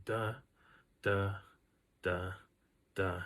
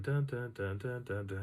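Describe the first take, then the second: First: Single "Da"s with long gaps between; slow footstep beat. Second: Unbroken brisk string of "da"s; quick footstep beat. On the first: Walker imitates the follower's one step to two, slow beat. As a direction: sound out slow, widely spaced steps. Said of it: "taking one step for every two". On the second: Walker demonstrates own two steps for one, quick beat. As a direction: patter out steps at double the follower's rate. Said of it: "and I'm going". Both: Retold or imitated.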